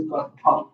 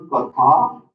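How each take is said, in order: First: Katha with a short, light final vowel; correct pronunciation. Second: Katha with the last vowel drawn out and pushed louder; wrong pronunciation. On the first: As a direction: keep the ending of Katha short and unforced. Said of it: "It is Katha". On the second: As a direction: lean on a long, open ending in Katha. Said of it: "It is not Katha". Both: Shown as a demonstration.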